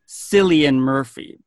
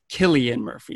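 First: The first name begins with an S sound. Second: The first name begins with a K sound. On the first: This is how the spelling suggests it is said. The speaker calls it wrong. "logically, you would think his name is pronounced" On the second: This is the proper Irish way to say it. The speaker calls it right. "That is the proper Irish pronunciation of his name"

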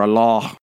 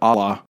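First: It is said with an Arabic pronunciation. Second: It is said with an English pronunciation.

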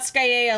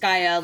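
First: The name rhymes with paella. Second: The name rhymes with fryer. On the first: The speaker calls it wrong. "it's not Skyea like paella" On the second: The speaker calls it right. "It's Skyea like French fryer"

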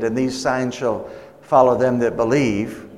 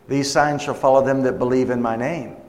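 First: It stops with a hesitation after 'believe'. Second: It flows on without pausing after 'believe'.

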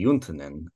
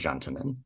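First: The name is said with Finnish pronunciation. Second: The name is said with American pronunciation. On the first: This is the original form of the name. "it's a Finnish name, and so actually correctly would be" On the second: This is the form adopted after immigration. "when my great-grandparents came, it became"

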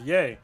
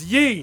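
First: The vowel sounds like 'ay' in 'day'. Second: The vowel sounds like 'ee' in 'see'. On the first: The speaker calls it wrong. "Yee is pronounced yay. No, it's not" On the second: The speaker calls it right. "It's yee"

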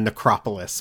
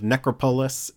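First: It is said as one blended, everyday word. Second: It is said as 'necro' plus a separate 'polis'. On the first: "as distinct from necropolis" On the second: "I specifically said it like that"

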